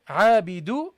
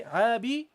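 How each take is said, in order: First: عابد with a single dhamma, ending -du; correct pronunciation. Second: عابد as the usual reading with nunation; demonstrated pronunciation. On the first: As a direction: say عابد as عابدُ, dropping the noon. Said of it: "you don't do this". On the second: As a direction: say عابد the normal way. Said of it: "normally you would say". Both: Shown as a demonstration.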